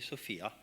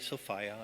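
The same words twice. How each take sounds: First: The middle syllable does not rhyme with 'desire'. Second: The middle syllable rhymes with 'desire'. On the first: It names a human girl. The speaker calls it wrong. "I don't say Sophia, because Sophia is the name you would give to a human girl" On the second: It names the goddess. The speaker calls it right. "I say Sophia ... Sophia rhymes with desire"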